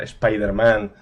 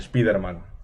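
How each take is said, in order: First: The name is said with English sounds. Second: The name is read with Spanish sounds. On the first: This is how the name really sounds. "aunque sea" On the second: This is how it was learned as a child. "Spider-Man siempre va a ser"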